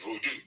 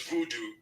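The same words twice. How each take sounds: First: Final "voodoo" said voh-doo; "voodoo" with an o in the first syllable; proper pronunciation. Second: First "voodoo" said voo-doo; "voodoo" with oo in both syllables; common mispronunciation. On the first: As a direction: open "voodoo" on a long voh. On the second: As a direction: say "voodoo" with an opening oo. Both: Shown as a demonstration. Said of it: "mispronunciation can lead to a different narrative".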